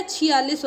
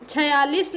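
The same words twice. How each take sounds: First: छियालीस with 'i' after छ, chhi-yalis; correct pronunciation. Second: छियालीस said with short 'a' after छ, as 'chhayalis'; wrong pronunciation. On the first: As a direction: say chhi clearly at the start of छियालीस. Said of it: "होता है". (छियालीस में 'छि' साफ़ बोलें) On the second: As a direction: say छियालीस wrongly as chha-yalis. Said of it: "नहीं होता है". (छियालीस को गलत रूप 'छयालीस' में बोलें) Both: Shown as a demonstration.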